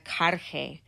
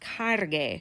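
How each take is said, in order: First: The g before e sounds soft and breathy. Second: The g before e sounds hard. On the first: The speaker calls it wrong. "I don't want carge" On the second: The speaker calls it right. "I want cargue"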